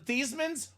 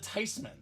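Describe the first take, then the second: First: The first vowel sounds like 'ee'. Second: The first vowel sounds like 'eye'. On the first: The speaker calls it wrong. "We're not the" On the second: The speaker calls it right. "We're the"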